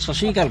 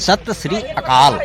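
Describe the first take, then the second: First: The words are squeezed together into one word. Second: Each of the three words is said separately. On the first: The speaker calls it wrong. "আমাৰ মানুহবিলাকে এনেকৈ প্ৰনাউন্সটো কৰিব নাজানে" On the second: The speaker calls it right. "চশ্ৰীকাল নহয় সত শ্ৰী আকাল"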